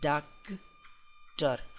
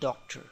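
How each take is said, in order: First: It is said with a Hindi pronunciation. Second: It is said with an English pronunciation. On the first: "doctor in Hindi" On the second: "in English if you go, then it's called doctor"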